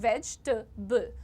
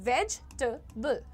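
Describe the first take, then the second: Both takes have the same delivery.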